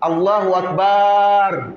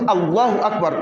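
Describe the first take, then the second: First: The 'ba' in Akbar is drawn out long. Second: The 'ba' in Akbar is kept short. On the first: The speaker calls it wrong. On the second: The speaker calls it right.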